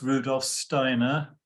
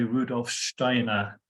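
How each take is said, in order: First: The name is said with English pronunciation. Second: The name is said with German pronunciation. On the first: "which is the kind of anglicized pronunciation" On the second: "which is the correct pronunciation"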